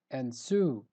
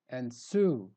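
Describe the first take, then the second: No difference in how they are said.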